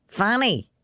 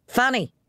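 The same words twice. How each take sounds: First: Higher call up the stairs; calling upstairs. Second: Sharper, higher command of the name; peremptory. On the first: Father calling Fanny up the stairs, raised voice. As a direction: call her name up to the landing. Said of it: "he called up the stairs". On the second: Father calling Fanny again, peremptorily. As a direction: demand she come at once. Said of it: "he said peremptorily". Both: Acted.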